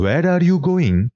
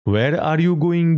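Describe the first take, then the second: First: Slow, higher "where are you going" with stress on you, falling; slow precise English question "where are you going"; proper English. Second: Very slow, higher, careful English "Where are you going?"; slow correct British phrasing of "Where are you going?"; proper English. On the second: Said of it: "বিলিতি কায়দা জানে". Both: Shown as a demonstration.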